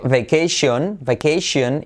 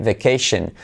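First: "vacation" with Spanish "-yon" ending; wrong pronunciation. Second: "vacation" as "vuh-KAY-shun"; correct pronunciation. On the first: Retold or imitated. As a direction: mimic learners saying "vacation" as "beh-KAY-shion". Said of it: "Para de decir". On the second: Shown as a demonstration. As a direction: reduce the last syllable of "vacation" to "shen". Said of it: "empieza a decir".

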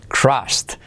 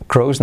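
First: "crossed" with a short open O and final T; corrected crossed. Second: "crows" with a long O and no final T; wrong crossed. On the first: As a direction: land the ST ending of "crossed". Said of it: "crows, no, crossed". ("crossed" con O abierta y T final) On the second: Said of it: "crows, no". ("crows" con O larga, sin T final) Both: Shown as a demonstration.

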